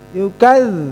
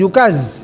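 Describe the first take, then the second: First: The middle consonant is a voiced th-sound. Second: The middle consonant is a plain z-sound. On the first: The speaker calls it right. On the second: The speaker calls it wrong.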